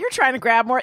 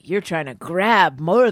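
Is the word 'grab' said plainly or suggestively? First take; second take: plainly; suggestively. First: The word grab is said in a flat, ordinary way. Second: The word grab is drawn out in a suggestive way. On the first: "he didn't just say like" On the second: "by the way he said grab"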